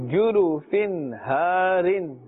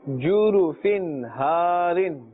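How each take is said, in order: The two takes are said the same way.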